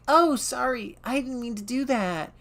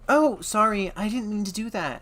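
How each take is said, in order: First: It is said in a high-pitched girl voice. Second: It is said in an ordinary voice.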